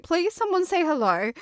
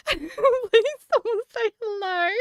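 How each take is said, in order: First: Said in the usual way. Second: Higher, slow, laughing plea to an empty chat; mock pleading. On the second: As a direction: drag out a desperate, laughing beg for someone to answer. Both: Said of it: "I was like".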